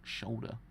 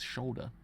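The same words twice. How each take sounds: First: The word begins with a sh sound. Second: The same.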